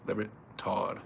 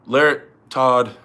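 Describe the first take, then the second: First: Much softer, lower musing to oneself; trailing off. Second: Said in the usual way. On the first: Real, not acted. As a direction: let "Larrett, Todd" fade almost to nothing. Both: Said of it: "weighing the pick aloud".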